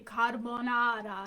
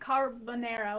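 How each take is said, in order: First: It is said with an Italian pronunciation. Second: It is said with an American English pronunciation. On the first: The listener understands the order. "now I understand what you're saying" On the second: The listener cannot understand the order. "that's how he pronounces it"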